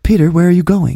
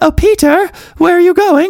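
First: The voice stays near natural pitch, slightly softened. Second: The voice is pushed up into a high register. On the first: The speaker calls it right. "make it a little more delicate, like that" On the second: The speaker calls it wrong. "I don't like talk with my voice up here"

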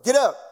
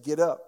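First: It is said in a stern, commanding tone. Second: It is said in a plain, mild tone.

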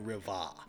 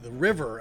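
First: The final R sound is dropped. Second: The final R sound is clearly pronounced. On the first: The speaker calls it right. "it's really the Riva" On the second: The speaker calls it wrong. "I'm putting an emphasis on the second R"

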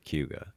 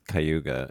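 First: The syllables are blended into one run-together word. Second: The syllables are said separately and distinctly. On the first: This is how locals say it. "locals say Cayuga" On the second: This is how an outsider would say it. "I always thought it was Cayuga"

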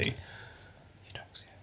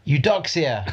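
First: It is said quietly and unsurely. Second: It is said loudly and confidently.

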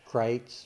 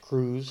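First: The vowel sounds like 'eye', as in 'Krites'. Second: The vowel sounds like 'oo', as in 'Cruz'. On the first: The speaker calls it right. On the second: The speaker calls it wrong. "which is often pronounced Cruz"

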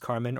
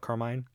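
First: The last syllable rhymes with 'hen'. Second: The last syllable rhymes with 'line'. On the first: "Carmen or Carmine?" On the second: "it's spelled Carmine"

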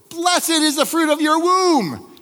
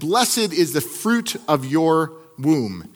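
First: It is said loudly and with force. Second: It is said at a normal, even volume.

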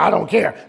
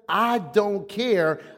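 First: It is said in a harsh, abrasive tone. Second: It is said in a calm, settled tone. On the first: It dismisses another person and starts an argument. The speaker calls it wrong. "don't say it abrasively" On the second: It expresses leaving the results to God. The speaker calls it right. "This is what you're saying to yourself"

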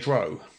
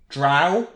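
First: The vowel does not rhyme with cow. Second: The vowel rhymes with cow. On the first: "some people say drow" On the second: "Drow rhymes with cow"

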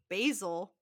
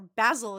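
First: The first vowel is long, like 'bay'. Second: The first vowel is short, like 'bad'.

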